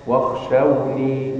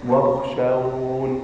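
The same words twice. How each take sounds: First: Slow واخشوني ending on a clear ya; with final ya. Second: واخشون drawn out slowly with no final ya; pause form demo. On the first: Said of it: "وفي سورة البقرة". (واخشوني بإثبات الياء ببطء) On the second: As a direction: stretch واخشون and stop on the nun. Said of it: "إذا وقفت هنا تقول ماذا". (واخشون بالوقف دون ياء ببطء) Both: Shown as a demonstration.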